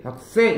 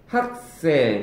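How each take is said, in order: First: 학생 with the last syllable 생 punched; light 학, hit 생 in 학생; wrong stress on 생. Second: 학생 with the first syllable 학 leaned on; strong 학, lighter 생 in 학생; stress on 학. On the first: Teacher showing what not to say, 학생 stressed on 생. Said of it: "이렇게 되지 않다고요". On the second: Teacher showing the normal Korean way, 학생 stressed on 학. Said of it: "이렇게 되지". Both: Shown as a demonstration.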